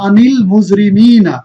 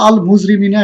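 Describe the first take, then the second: First: আনিল মুজরিমিনা slowly joined by an "i"; slow recitation of আনিল মুজরিমিনা with drawn-out long vowels; joined reading. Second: Said in the usual way. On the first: Shown as a demonstration. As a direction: read আনিল মুজরিমিনা as one linked phrase. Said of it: "এই দুইটা শব্দকে যদি আমরা মিলিয়ে পড়ি". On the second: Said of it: "তাহলে আন একটা শব্দ".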